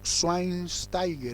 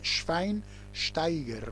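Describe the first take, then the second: First: The name is said with Spanish-style sounds. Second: The name is said with German sounds. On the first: The speaker calls it wrong. "algunos lo llaman" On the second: The speaker calls it right. "en alemán se pronuncia"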